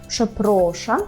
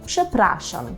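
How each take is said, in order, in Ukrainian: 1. У другому складі голосний o. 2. У другому складі голосний a. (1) "тут дуже часто чую помилкову вимову, часто кажете «пшепрошам», так не можна" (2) "так не можна, «пшепрашам»"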